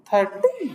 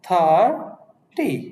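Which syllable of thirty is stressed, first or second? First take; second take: second; first. First: The stress is on the second syllable. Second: The stress is on the first syllable. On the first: The speaker calls it wrong. "নাকি আমরা কি কখনো এভাবে উচ্চারণ করি" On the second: The speaker calls it right. "আমার tone কিন্তু নেমে গেল"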